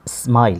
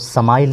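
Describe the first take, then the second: First: The word starts with an s-m cluster. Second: A vowel is inserted between s and m. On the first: The speaker calls it right. "इस पढ़ेंगे S वाला" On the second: The speaker calls it wrong. "इसको समाइल नहीं कहेंगे"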